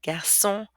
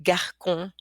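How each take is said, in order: First: "garçon" with an S sound, like gar-son; soft-S pronunciation. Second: "garcon" with a hard K, like gar-kon; wrong hard-K pronunciation. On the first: Teacher showing word with its cedilla, soft S. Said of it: "but with it". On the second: Teacher showing word without its cedilla, hard K. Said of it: "this word would be pronounced". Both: Shown as a demonstration.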